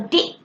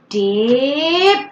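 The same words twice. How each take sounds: First: The final p sound is left off. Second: The final p sound is loud and popped. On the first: This imitates a child's unclear speech. The speaker calls it wrong. "they're leaving off the first sound or the last sound" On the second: This encourages the child to say the final sound. The speaker calls it right. "emphasizing the last sound"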